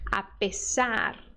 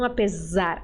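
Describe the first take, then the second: First: The middle consonant is a hissing s sound. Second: The middle consonant is a buzzing z sound. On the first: The speaker calls it right. "letra S ... sempre tem som de S" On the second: The speaker calls it wrong. "o brasileiro tem a tendência de transformar essa letra S em Z"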